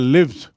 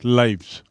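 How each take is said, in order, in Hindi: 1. यह स्वर 'it' के स्वर जैसा सुनाई देता है। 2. यह स्वर 'eye' के स्वर जैसा सुनाई देता है। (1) "स्पेलिंग वही है, लेकिन उच्चारण हो गया लिव्स" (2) "उसका बहुवचन है लाइव्स"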